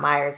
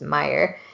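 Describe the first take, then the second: First: The name ends with an s sound. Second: The name ends without an s sound. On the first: The speaker calls it wrong. "it's not Myers" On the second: The speaker calls it right. "it's just Meyer"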